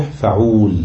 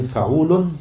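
First: فعول cut to fa-uul, long u, silent-vowel l; shortened foot. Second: فعول with a final n, fa-uu-lun; full foot. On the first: Teacher showing the shortened foot, فعول ending in -uul. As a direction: end فعول on a bare l, no n. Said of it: "شلنا النون الساكنة وسكننا". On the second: Teacher giving the unaltered foot, فعول ending in -lun. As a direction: sound the last syllable of فعول as "lun". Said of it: "تصبح فعول". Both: Shown as a demonstration.

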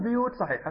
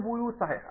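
First: بيوت as "biyut", first syllable bi; kasra on the ba. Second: بيوت as "buyut", first syllable bu; damma on the ba. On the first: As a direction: start بيوت with b and a short i. (بيوت بكسر الباء) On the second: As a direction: start بيوت with b and a short u. (بيوت بضم الباء) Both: Retold or imitated. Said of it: "هذه لغة العرب وهذه لغة العرب".

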